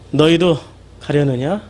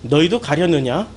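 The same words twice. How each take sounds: First: It is said in a dejected, dispirited voice. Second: It is read in a plain, neutral voice.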